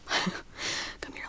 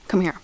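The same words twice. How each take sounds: First: Breathy playful whisper, much softer. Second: Said in the usual way. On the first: Pretend. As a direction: lean in and whisper it to the viewer. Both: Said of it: "Let me whisper in your ear".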